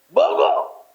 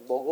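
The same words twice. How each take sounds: First: It is said in a loud, harsh tone. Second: It is said in a soft, affectionate tone. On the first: The speaker is being forceful. "막 이렇게 하는다. 어떻게 부드럽지 않지 않아" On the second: The speaker is being kind. "얼마나 다정스러워"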